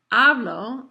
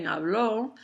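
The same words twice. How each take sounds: First: "hablo" with a loud, punched HA; stress on first syllable. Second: "habló" with the weight on LÓ; stress on final syllable. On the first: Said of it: "So if I say". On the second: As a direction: lean on the end of "habló". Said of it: "emphasize that final syllable". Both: Shown as a demonstration.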